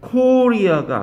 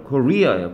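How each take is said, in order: First: The stress is on the first syllable. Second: The stress is on the second syllable. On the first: The speaker calls it wrong. "코리아가 아니라" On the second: The speaker calls it right. "여기가 아니라 여기 와요"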